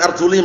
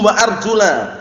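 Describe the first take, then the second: First: The word ends with an 'i' vowel. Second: The word ends with an 'a' vowel. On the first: The feet only need to be wiped. The speaker calls it wrong. "Jangan arjuli bacanya" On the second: The feet are to be washed. The speaker calls it right. "Yang benar arjula"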